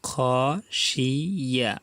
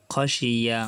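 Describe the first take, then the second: First: খশিয়া stretched very slowly, each sound held; drawn out. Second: Said in the usual way. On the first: Shown as a demonstration. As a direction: drawl খশিয়া out for learners. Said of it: "teacher drawls then repeats". (খশিয়া খুব টেনে ধীরে ধীরে) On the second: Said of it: "quick plain repeat after drawl".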